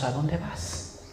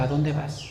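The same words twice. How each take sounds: First: Hushed question. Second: Quiet question. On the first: Peter asks Jesus. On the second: Jesus asks Peter. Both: Retold or imitated.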